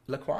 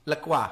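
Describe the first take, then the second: First: La Croix said as an unsure question, rising on Croix. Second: La Croix said firmly, falling on La; settled La Croix. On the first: Streamer unsure how to say the drink name, asking with a rise. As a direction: try out La Croix with a doubtful rise. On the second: Streamer settles on the drink name, falling and sure. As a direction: land La Croix as a confident statement. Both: Shown as a demonstration. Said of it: "Is that how you say it?".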